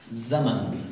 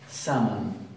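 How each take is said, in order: First: It begins with a voiced, buzzing z sound. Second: It begins with a voiceless, hissing s sound. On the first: The speaker calls it right. "Ese sonido es el sonido de la zay" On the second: The speaker calls it wrong. "no se entiende. No, no es ese el sonido"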